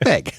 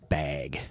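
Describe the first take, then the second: First: The vowel has a raised Minnesotan quality. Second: The vowel has a plain, neutral quality. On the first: This is how people in the region say it. "Often sound like, like bag, just like that" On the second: This is how the speaker usually says it. "I think I've always said bag"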